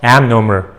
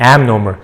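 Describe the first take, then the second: Both takes have the same delivery.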